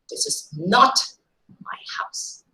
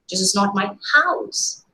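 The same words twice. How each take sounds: First: The stress falls on the word my. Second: The stress falls on the word house. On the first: The house belongs to somebody else. "while the stress changes to my possession, likely guesses are somebody else's" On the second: The building is something other than a house. "Probably some other construction, maybe a go down"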